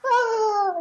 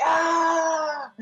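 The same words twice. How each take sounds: First: An extremely high, thin squeak of a yell; God hearing a tiny man's yell from heaven, a squeaky high cry; tiny distant yell. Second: A sudden high raging yell; prayer yelled in anger, a raw high cry; yelling at God. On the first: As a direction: squeak it like a tiny figure far below. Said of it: "this little tiny guy". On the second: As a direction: let out a howl of frustration, way up high. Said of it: "like, yelling". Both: Retold or imitated.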